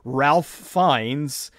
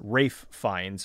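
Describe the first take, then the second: First: The first name sounds like 'Ralph', as it is spelled. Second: The first name sounds like 'Rafe', without an L. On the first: This is how a newcomer would read the name. The speaker calls it wrong. "that's not how you pronounce his name" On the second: This is how the man himself says his name. The speaker calls it right. "or at least that's how he pronounces it"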